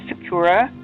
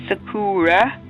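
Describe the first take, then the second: First: The middle vowel is short. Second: The middle vowel is a long oo sound. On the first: The speaker calls it wrong. "I was told that I was saying it wrong" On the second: The speaker calls it right. "done Sakura with two O's"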